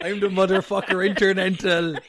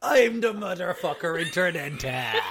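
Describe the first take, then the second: First: Louder hammed-up champion brag; mock wrestler boast. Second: Laughing through it. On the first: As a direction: boom it like a wrestler. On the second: Retold or imitated. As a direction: crack up while saying it. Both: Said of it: "What the fuck was that sentence?".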